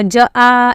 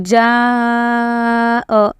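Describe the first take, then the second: First: The vowel is broken into two separate sounds. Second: The vowel is stretched out in one smooth sound. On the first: The speaker calls it wrong. "ऐसे नहीं पढ़ सकते, गलत हो जाएगा वो।" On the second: The speaker calls it right. "जा को खींचना होता है"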